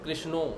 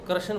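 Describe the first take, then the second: First: The word is said in a Bengali accent. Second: The word is said in a Haryanvi accent. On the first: "Bengal में आ जाओ तो वो क्या बोलते हैं" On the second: "हरियाणा के गुरु भाई गुरु बहन ... वो कृष्ण बोलते हैं"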